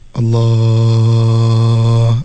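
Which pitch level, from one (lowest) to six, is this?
one. Said at the lowest pitch level. "yang paling bawah suara saya"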